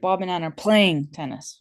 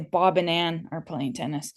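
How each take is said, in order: First: The word playing carries the stress. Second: Bob and Ann carry the stress.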